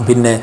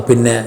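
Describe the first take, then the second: The two takes are said the same way.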